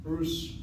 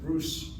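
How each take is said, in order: First: The name ends with an s sound. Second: The same.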